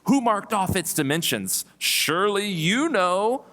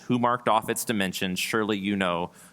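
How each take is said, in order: First: It is read with a sarcastic tone. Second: It is read flatly, with little emotion. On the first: "to read them a little bit more sarcastically" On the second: "I tried to say it with as little emotion as possible"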